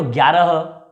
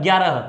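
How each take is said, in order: First: ग्यारह said cleanly, starting straight on the gy; careful textbook ग्यारह with no added first sound; correct pronunciation. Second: ग्यारह with an added "a" in front, like a-gyarah; more corrupted pronunciation. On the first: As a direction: say ग्यारह in pure form, no vowel before it. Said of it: "इसको शुद्ध बोले तो". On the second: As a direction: put a short a before ग्यारह. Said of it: "कुछ लोग और अशुद्ध बोलते हैं". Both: Shown as a demonstration.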